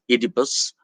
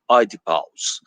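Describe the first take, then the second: First: The name is pronounced the English way. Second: The name is pronounced the Greek way. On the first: "that is the anglicized pronunciation" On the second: "The original Greek pronunciation being"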